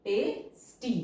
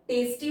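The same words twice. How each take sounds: First: tasty broken into "te" and "sti" with a gap; syllable by syllable. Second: Said in the usual way. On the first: Shown as a demonstration. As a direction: pause inside tasty after "te". Syllable-by-syllable while writing.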